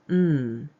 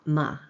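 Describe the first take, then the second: First: The consonant sound is said with no vowel after. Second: The consonant sound is followed by an added vowel. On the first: The speaker calls it right. "with no added vowel at the end" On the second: The speaker calls it wrong. "and not M"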